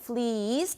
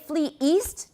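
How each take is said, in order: First: The two words run together without a catch. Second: A glottal catch separates the two words. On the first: "took the glottal stop out" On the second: "We put that glottal stop in there to keep them separate"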